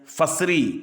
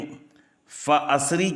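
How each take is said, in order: First: No glottal stop; fa runs straight into sri. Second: A glottal stop separates fa from asri. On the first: This is the reading of the reciter being described. "हमज़ा वसलिया से वसलन हमज़ा को हज़फ करके" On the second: This is the reading of other reciters. "हमज़ा क़तइया के बजाय"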